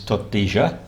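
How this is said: The double L sounds like zh, Rio Platense.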